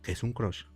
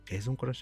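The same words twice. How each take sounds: First: It sounds harsh, blunt and dismissive. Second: It sounds warm, open and genuinely curious. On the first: The listener is being rejected and shut out. The speaker calls it wrong. "ese tono tan golpeado da la impresión de que genera rechazo" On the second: The asker truly wants to hear the answer. The speaker calls it right. "tiene un interés legítimo"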